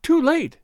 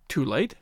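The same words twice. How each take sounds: First: A high anguished moan; moaning too late in sudden despair. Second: Low puzzled questioning echo, rising at the end; echoing her cry in quiet surprise; surprised echo. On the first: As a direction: cry it out in despair, much higher. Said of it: "and then moaned". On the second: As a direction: echo her words back, baffled. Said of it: "he echoed in surprise". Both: A narrator's reading.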